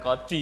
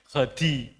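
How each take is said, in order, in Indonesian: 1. Diawali dengan bunyi k keras yang biasa. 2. Diawali dengan bunyi kh serak dari tenggorokan. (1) "Bukan kodi nggih" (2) "harus jelas"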